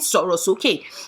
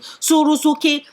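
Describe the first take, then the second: First: The word is said with its Yoruba tones. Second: The word is read without its Yoruba tones. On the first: This is the word the author thinks she wrote. The speaker calls it right. "but in her head, she's selling Sorosoke" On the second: This is what the unmarked spelling actually reads as. The speaker calls it wrong. "she's literally selling Sorosoke"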